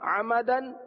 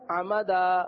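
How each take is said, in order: First: The word ends with an n sound. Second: The word ends with a long a vowel. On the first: The reading continues without stopping. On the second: The reader stops on this word.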